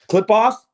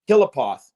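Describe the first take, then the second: First: It is said in two syllables, like clip off. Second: It is said in three syllables, like killapoth. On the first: "the way you pronounce it, clip, clip off" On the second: "everyone else ... pronounces it Killapoth"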